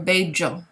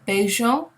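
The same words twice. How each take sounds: First: The double L sounds like a harder j. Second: The double L sounds like a soft sh. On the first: "a little bit harder as a j sound" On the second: "a sort of softer sound like sh"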